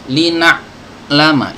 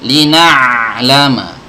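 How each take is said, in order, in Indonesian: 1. Bunyi ain itu terputus tiba-tiba. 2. Bunyi ain itu mengalir terus tanpa putus. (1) "ini putus" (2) "suara alirannya terdengar"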